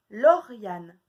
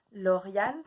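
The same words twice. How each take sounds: First: Loud "Lauriane" with the first syllable cut; called-out syllable. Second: Said in the usual way. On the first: Shown as a demonstration. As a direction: call out "Lauriane" to the class. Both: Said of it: "de deviner lesquels c'est".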